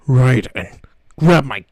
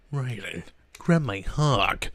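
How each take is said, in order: First: Loud gruff soldier growl; Solid Snake voice. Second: Gruff soldier growl, lightly voiced; Solid Snake voice. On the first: Retold or imitated. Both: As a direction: growl it like a grizzled spy. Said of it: "a Solid Snake impression".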